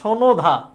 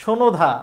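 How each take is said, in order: No difference in how they are said.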